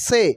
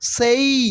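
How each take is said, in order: First: The vowel stays plain with no glide. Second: The vowel glides upward into an ee sound. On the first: The speaker calls it wrong. "Not সে" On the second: The speaker calls it right. "ঠিক এইভাবে বলতে হবে"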